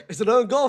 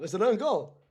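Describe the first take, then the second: First: Laughing. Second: Said in the usual way. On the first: Real, not acted. Laughing at own goal.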